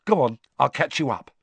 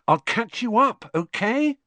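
First: Said in the usual way. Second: Put-on much higher girl's voice, rising; bright, higher-pitched schoolgirl echo; Hermione's voice. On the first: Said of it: "Harry said". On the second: A narrator's reading. Hermione echoes Harry's line.

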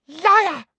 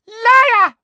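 First: High, loud, sharp cry; angry accusation. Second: Piercing, very loud high scream; furious shout. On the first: Umbridge rejects Harry's excuse, angrily. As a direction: snap the accusation, short of a full scream. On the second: Umbridge throws Harry from her, shouting furiously. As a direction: scream the accusation at the top of your voice. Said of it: "shouted Umbridge". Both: Acted.

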